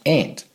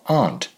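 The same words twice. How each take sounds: First: The vowel is a flat 'a' as in 'ant'. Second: The vowel is a broad open 'ah' sound. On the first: The speaker calls it wrong. "not aunt" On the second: The speaker calls it right. "as in the British pronunciation of aunt"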